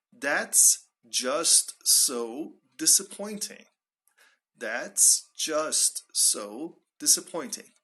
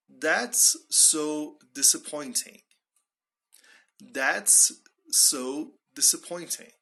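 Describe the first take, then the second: First: "just so" drawn out slowly; emphasized. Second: Slow, deliberate, spaced-out words; slow model phrase. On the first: Teacher shows how to emphasize, "just so" slow and deliberate. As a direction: lean on each word of "just so disappointing". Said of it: "if you want to emphasize it". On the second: Teacher models a direct expression, slowly and deliberately. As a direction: draw out "That's so disappointing". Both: Shown as a demonstration.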